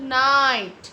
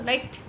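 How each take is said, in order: First: नाइट loud with a held "naaait"; long I sound. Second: नाइट quick and short, vowel not held; short clipped I. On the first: Teacher modelling it for the class, long loud नाइट. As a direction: stretch the vowel in नाइट and punch it. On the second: Teacher contrasting with the long sound, short quick नाइट. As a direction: say नाइट briefly at an ordinary level. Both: Shown as a demonstration. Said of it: "आई का sound is long".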